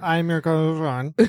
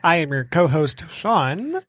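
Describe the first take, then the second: First: The words run together and are slurred. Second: Each word is pronounced carefully and distinctly. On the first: The speaker calls it wrong. "last time I was like" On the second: The speaker calls it right. "That was very well enunciated"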